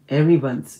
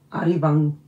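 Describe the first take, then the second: First: The name starts with 'e' and ends in 'beons'. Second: The name starts with 'a' and ends in 'bang'. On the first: "아니면 에리번스 이렇게 읽어야 될까요?" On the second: "아리방이라고 읽어야 되나요?"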